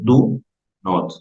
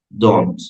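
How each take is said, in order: First: Two separate words, do and not. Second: One contracted word, don't. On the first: "Si lo quieren decir de manera separada" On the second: "De la junta"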